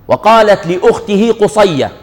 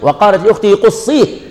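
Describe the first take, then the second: First: The last word ends with an 'ayya' sound. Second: The last word ends with an 'ihi' sound. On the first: It is read as a person's name. The speaker calls it wrong. "لا هي مش قصية" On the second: It means follow his track. The speaker calls it right. "يعني تتبعي أثره"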